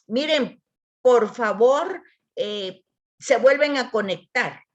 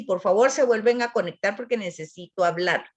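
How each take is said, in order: First: Intentional delivery. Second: Said in the usual way. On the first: Shown as a demonstration. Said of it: "la voy a leer poniendo, eh, la intención". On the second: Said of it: "puedo decir así".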